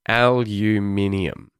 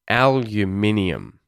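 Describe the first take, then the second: First: The word has five syllables. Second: The same.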